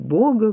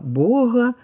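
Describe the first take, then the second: First: The g is a full stop consonant. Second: The g is a voiced fricative. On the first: This is how it will soon be said by analogy. "под действием закона аналогии мы будем говорить" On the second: This is still rated the preferred pronunciation. "еще как предпочтительное оценивается произнесение «г» щелевого"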